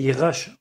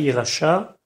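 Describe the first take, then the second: First: The stress is on the first syllable. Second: The stress is on the last syllable. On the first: The speaker calls it right. "l'accent tonique au début pour montrer que c'est un tzivui" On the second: The speaker calls it wrong. "Pas Yerasha"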